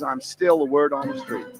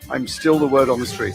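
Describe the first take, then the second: First: It is said in a Southern accent. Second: It is said in the speaker's own accent.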